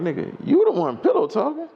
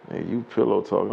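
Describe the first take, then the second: First: Very high, indignant retort; incredulous comeback. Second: Said in the usual way. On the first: Retold or imitated. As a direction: throw the accusation back in high-pitched disbelief. Retells his incredulous comeback to accusation.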